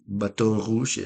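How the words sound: It is said with a French accent. This is the original pronunciation of the name. The speaker calls it right. "no, es, es Baton Rouge, es, es francés"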